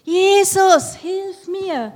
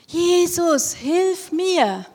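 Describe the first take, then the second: First: Very high, very loud desperate scream; screaming much louder. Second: High, loud cry for help; loud calling out. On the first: Blind beggar screaming over the crowd to Jesus. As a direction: scream it with all your strength. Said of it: "noch mal viel lauter geschrien". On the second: Blind beggar calling loudly to passing Jesus. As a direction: call out to Jesus across the crowd. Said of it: "hat ganz laut gerufen". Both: Acted.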